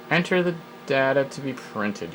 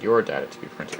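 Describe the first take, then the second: First: "data" said DAT-uh, higher reading pitch; data with short a. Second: "data" said DAY-tuh, dropped to low pitch; data with long a. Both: Shown as a demonstration. Data said two ways.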